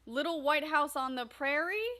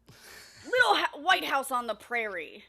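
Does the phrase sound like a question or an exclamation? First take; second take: question; exclamation. First: It is read like a question, pitch rising. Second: It is read like an exclamation, with some enthusiasm. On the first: "Put question marks" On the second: "If one comes with an exclamation mark, can you read it that way too?"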